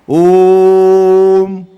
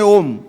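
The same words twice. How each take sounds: First: A rounded blown sound closes into m. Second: The final m is pronounced as a separate sound. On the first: The speaker calls it right. "तोंडाचा चंबू करा, त्याच्यामध्ये नाद फुका आणि बंद करा, म्हणजे म येतो" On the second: The speaker calls it wrong. "चुकीचं बोलताय"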